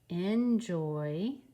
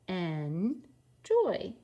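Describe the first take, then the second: First: The word is said smoothly in one go. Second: The word is split into two separate syllables. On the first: "read these a little bit smoother" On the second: "we have a two-syllable word"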